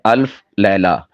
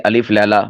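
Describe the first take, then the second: First: The L and F sounds are joined directly. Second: A vowel separates the L and F sounds. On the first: The speaker calls it right. "सही है अल्फ़ लैला, यानी लाम के ऊपर साकिन जज़म पढ़नी है।" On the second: The speaker calls it wrong. "बाज़ इसे अलिफ़ लैला बोल देते हैं, ये गलत है।"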